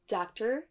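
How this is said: American accent, the final r is pronounced. "l'accent U S d'abord"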